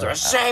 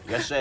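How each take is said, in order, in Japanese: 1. いらっしゃいは、テンションが高く言われています。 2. いらっしゃいは、テンションが低く言われています。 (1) "俺はもっといらっしゃいみたいな" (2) "いらっしゃいのテンションが低いんですよ"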